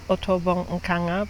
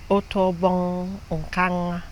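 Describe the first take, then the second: First: The name is said with anglicized sounds. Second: The name is said with native Ibibio sounds. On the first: The speaker calls it wrong. "my name is" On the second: The speaker calls it right. "the right way to pronounce it is"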